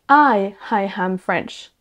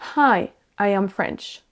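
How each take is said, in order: First: No h on hi, an h before am. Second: An h is heard on hi, not on am. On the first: It sounds like I, hello, ham, French, which makes no sense. The speaker calls it wrong. "Si vous enlevez les H là où il y en avait et que vous en mettez là où il n'en faut pas" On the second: It means hello, I am French. The speaker calls it right. "Si vous placez les H aux bons endroits et que vous n'en mettez pas là où il n'en faut pas"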